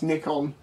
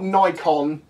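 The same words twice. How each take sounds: First: It is said the British way. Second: It is said the American way. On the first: The speaker calls it right. "it's Nikon" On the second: The speaker calls it wrong. "it's not Nikon"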